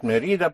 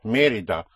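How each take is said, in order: First: Mérida stressed on the middle syllable, me-RI-da. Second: Mérida stressed on the first syllable, MÉ-ri-da. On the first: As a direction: push the RI of Mérida. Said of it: "But it is not Mérida". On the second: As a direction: punch the MÉ of Mérida. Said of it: "because it's Mérida". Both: Shown as a demonstration.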